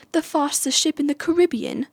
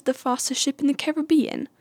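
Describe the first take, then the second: First: Higher-pitched bad British accent, Caribbean as kuh-RIB-ee-un; badly faked British accent, stressing RIB in "Caribbean"; Elizabeth Swann. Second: Higher-pitched bad British accent, Caribbean as care-uh-BEE-un; badly faked British accent, stressing BE in "Caribbean"; Elizabeth Swann. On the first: Vlogger imitating a film heroine's wrong version, bad British accent. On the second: Vlogger imitating a film heroine's real line, bad British accent. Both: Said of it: "worst accent I've ever done".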